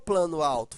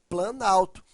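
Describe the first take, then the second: First: Two separate words, with the o of plano kept. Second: One merged word, with the o of plano dropped. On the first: The speaker calls it wrong. "Não ficou plano alto" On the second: The speaker calls it right. "ficou planalto"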